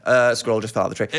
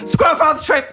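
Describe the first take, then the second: First: It is said calmly and casually. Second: It is blurted out excitedly.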